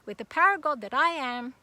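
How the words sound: It is said strongly, with authority.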